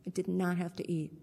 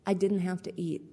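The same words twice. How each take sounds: First: Not stressed, did not spelled out in full, faster and softer. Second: Said in the usual way. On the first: Shown as a demonstration. Speaker to meeting, stressing she did not have to eat.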